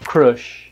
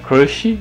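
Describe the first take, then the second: First: The word ends on the sh sound. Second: The word ends with an added vowel sound. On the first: This is the original English pronunciation. "E a pronúncia original é crush. Forte no começo de novo" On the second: This is the Brazilian Portuguese adaptation. "E a gente fala crush, né, crush, não tem nem i no final"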